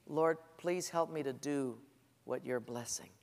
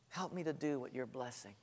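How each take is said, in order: First: Soft and humble, asking gently; humble prayer. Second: Much softer, almost breathed; hushed prayer. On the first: Preacher modelling the better prayer, hushed and humble. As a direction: pray it quietly, asking to be led. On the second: Preacher repeating the prayer to the congregation, hushed. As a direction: let the repeat fall to a hush. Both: Shown as a demonstration. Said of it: "here's a better prayer".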